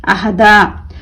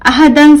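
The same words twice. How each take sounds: First: "अहदा" ending on a long open aa, no n; pausal alif ending. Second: "अहदन" ending on a sounded n; full nasal ending. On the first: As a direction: stop on "अहदा" with the last vowel held. ("अहदा" आख़िर में अलिफ के साथ, बिना नून) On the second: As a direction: say "अहदन" with the final -an pronounced. ("अहदन" आख़िर में नून की आवाज़ के साथ) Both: Shown as a demonstration. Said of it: "अलिफ पढ़ा जाता है".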